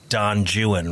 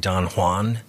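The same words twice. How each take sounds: First: It is pronounced in an English way. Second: It is pronounced in a Spanish way. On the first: The speaker calls it wrong. "like the English would say" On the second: The speaker calls it right. "rather than say"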